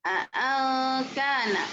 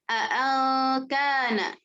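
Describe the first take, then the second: The two takes are said the same way.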